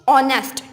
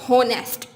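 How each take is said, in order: First: The word begins with a vowel, no h. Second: The word begins with an audible h sound. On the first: The speaker calls it right. "एच की sound नहीं आती" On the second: The speaker calls it wrong. "Not होनेस्ट"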